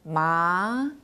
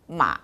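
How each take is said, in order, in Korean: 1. 중간 높이에서 높은 쪽으로 부드럽게 올라갑니다. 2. 낮게 내려갔다가 조금 올라갑니다. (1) "이성은 이렇게 부드럽게 한 미에서 솔까지 올라가는 음" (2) "삼성의 마, 이렇게 내려갔다가 위로 조금 올라가는 음"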